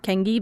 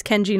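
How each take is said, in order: First: "Kengi" with a hard g, KENG-ghee; "Kengi", the mistaken hard-g reading. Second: "Kenji" with a J sound, KEN-jee; "Kenji", middle consonant like J; soft G. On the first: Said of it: "not Kengi". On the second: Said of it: "it's Kenji, not Kengi". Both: Shown as a demonstration.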